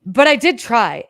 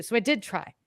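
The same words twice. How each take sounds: First: "did" hit loud and slow, but I DID try; stress on did. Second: Said in the usual way. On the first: Real, not acted. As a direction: lean hard on "did" to insist. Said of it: "insists she tried". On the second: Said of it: "calm restatement".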